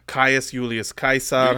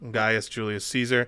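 First: The name is said the classical Latin way. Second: The name is said the anglicized way.

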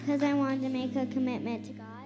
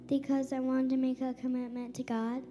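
First: It is said loudly. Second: It is said at normal volume.

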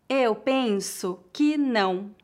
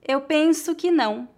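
First: The sentence is spoken slowly and carefully. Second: The sentence is spoken at a natural pace. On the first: "Uma vez mais devagar" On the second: "outra vez mais naturalmente"

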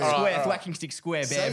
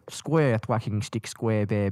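First: The phrase is said quickly and less clearly. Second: The phrase is said slowly and clearly enunciated.

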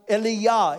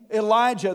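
First: The middle consonant is a 'y' sound. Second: The middle consonant is a 'j' sound. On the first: "they would have pronounced Eliyah" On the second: "The name Elijah"

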